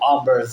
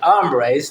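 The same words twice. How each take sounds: First: The word is said with English-style sounds. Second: The word is said with Spanish-style sounds. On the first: The speaker calls it wrong. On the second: The speaker calls it right.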